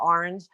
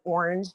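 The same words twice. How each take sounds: First: It is said with a New York accent. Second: It is said with no New York accent. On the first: This is how New Yorkers say it. "instead of orange" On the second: This is how the son says it. "He says orange"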